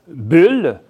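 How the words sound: The vowel is open and lax. This is the usual Quebec pronunciation. "Au Québec, évidemment, ce sont les premières qu'on entend"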